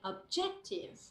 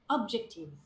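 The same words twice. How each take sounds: First: The stress falls on the standard syllable. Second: The stress falls on a misplaced syllable. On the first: The speaker calls it right. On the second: The speaker calls it wrong.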